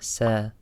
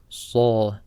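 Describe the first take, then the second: First: "sa" thin, like "seh"; light s error. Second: "sa" dark and full, like "saw"; heavy sad. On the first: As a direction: mispronounce "sa" with a light s. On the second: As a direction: say "sa" with a thick emphatic s. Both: Shown as a demonstration. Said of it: "Sad is a heavy letter".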